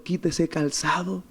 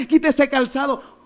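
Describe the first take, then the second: First: Soft, slow divine instruction; gentle solemn command. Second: High-pitched, insistent exhortation; urgent preached command. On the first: Retold or imitated. God tells someone to remove the shoe, gentle solemn command. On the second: Real, not acted. Preacher urges the congregation to remove it, urgent preached command. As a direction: press "quita ese calzado" home, pitched high.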